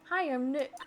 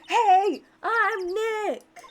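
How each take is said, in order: First: It is said quietly. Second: It is said loudly.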